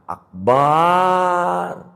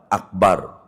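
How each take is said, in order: First: The vowel after the b is drawn out long. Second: The vowel after the b is short. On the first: The speaker calls it wrong. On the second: The speaker calls it right.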